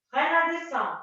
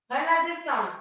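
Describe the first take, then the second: No difference in how they are said.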